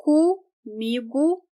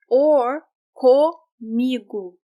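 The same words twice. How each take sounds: First: Comigo with the first O as U, umigu; reduced first vowel. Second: Comigo with a clear O at the start, komigu; full O vowel. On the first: Teacher contrasting the two ways of saying Comigo, reduced. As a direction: say Comigo starting with U. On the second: Teacher contrasting the two ways of saying comigo, full O. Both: Shown as a demonstration. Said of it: "can be pronounced as the vowel U".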